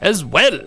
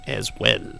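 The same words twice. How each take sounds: First: Higher, swooping impression at full voice; Alex Jones. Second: Soft, higher-pitched impression; lightly put-on impression, kept quiet; Alex Jones. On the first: Radio host doing his impression of the day, hammed-up. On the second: Radio host slipping into an impression, softly put on. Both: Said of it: "It's my Alex Jones impression for the day".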